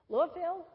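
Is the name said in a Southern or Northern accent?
Southern. It is said in a Southern accent.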